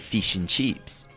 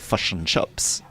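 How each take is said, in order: First: It is said in an Australian accent. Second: It is said in a New Zealand accent. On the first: "in Australia, they say fish and chips" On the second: "in New Zealand, they would say fish and chips with a uh sound"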